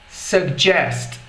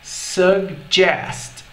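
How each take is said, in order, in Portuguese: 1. A palavra é dita em velocidade normal. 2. A palavra é dita devagar e alongada.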